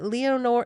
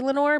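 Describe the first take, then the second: First: The name is said with three syllables. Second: The name is said with two syllables. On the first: This is how a pronunciation search says it. The speaker calls it right. "Leonore is how, when I Googled pronunciation" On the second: This is how the spelling suggests it is said. The speaker calls it wrong. "It looks like it should be Lenore"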